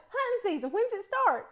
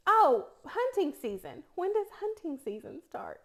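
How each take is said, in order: First: High-pitched East Tennessee country twang; country slip. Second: Put-on careful speech, East Tennessee accent suppressed; without an accent. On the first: Retold or imitated. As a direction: repeat it in a broad East Tennessee accent. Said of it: "just like that". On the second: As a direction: enunciate each word to hide the East Tennessee accent. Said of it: "do this without an accent".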